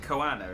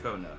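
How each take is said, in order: First: The name is said with three syllables. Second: The name is said with two syllables. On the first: The speaker calls it wrong. "I've been pronouncing it Koana in my head" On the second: The speaker calls it right. "It's just Kona"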